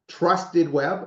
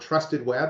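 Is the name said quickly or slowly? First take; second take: slowly; quickly. First: The name is said slowly and separately. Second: The name is said quickly and run together.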